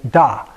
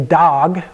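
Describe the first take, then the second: First: The final consonant is left silent. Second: The final consonant is pronounced. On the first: The speaker calls it right. "the dangling H or G at the end is not pronounced" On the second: The speaker calls it wrong. "we don't say dog"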